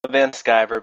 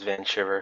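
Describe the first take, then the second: First: The second word begins with a 'sky' sound. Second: The second word begins with a 'shy' sound. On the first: This is how the character's creator says it. "you pronounce it like you're an American" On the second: This is how most people say it. "everybody says Van Shiver"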